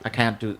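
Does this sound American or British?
American. It is said with an American-sounding accent. This is how the speaker used to talk. "I would never say that. I would say"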